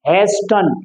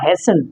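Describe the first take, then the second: First: The t sound is pronounced. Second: The t sound is silent. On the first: The speaker calls it wrong. "बहुत सारे बच्चे बोलते हैं इसको हैज टन" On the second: The speaker calls it right. "टी को हम silent रखेंगे, और इसी तरह से ये होगा हैसन"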